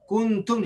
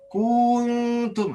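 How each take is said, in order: First: The first vowel is kept short. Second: The first vowel is stretched out long. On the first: The speaker calls it right. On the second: The speaker calls it wrong.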